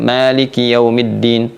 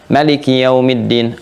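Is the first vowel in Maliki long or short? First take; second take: long; short. First: The first vowel of Maliki is drawn out long. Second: The first vowel of Maliki is kept short. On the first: "mau pakai misalnya bacaannya panjang, kalau kita pakai hafaz dari Asim" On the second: "Kalau pakai misalnya Qalun dari Nafi' atau Warsh dari Nafi'"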